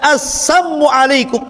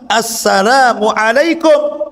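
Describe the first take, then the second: First: The first word drops its 'l' sound. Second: The first word keeps its 'l' sound. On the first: It wishes poison and death on the listener. The speaker calls it wrong. "Apa arti sam? Sam itu racun artinya" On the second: It is a proper greeting of peace. The speaker calls it right. "Yang benar apa?"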